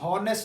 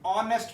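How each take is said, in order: First: The word begins with an audible h sound. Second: The word begins directly with a vowel sound. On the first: The speaker calls it wrong. "इसको हम हॉनेस्ट नहीं पढ़ते" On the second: The speaker calls it right. "ऑनेस्ट पढ़ते हैं"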